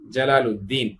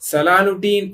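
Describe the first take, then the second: First: The name begins with a J sound. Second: The name begins with an S sound. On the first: The speaker calls it right. "ஜலாலுத்தீன் என்பது அழகான ஒரு பேர்" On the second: The speaker calls it wrong. "ஏன்னா ஒழுங்கா வாயில வரல"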